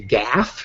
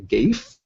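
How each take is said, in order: First: It is one syllable rhyming with laugh. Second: It is one syllable rhyming with safe. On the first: "rhymes with laugh" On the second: "as it rhymes with safe"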